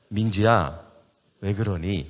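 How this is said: There is a short pause after the name.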